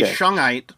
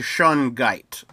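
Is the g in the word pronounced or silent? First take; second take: silent; pronounced. First: The g sound is silent. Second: The g sound is clearly pronounced. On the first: The speaker calls it wrong. "like where the G is silent" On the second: The speaker calls it right. "but it's actually Shungite"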